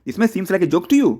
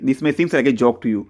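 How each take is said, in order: First: The voice rises at the end like a question. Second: The voice falls at the end like a statement. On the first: It asks whether the listener finds it a joke. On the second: It states that the listener finds it a joke.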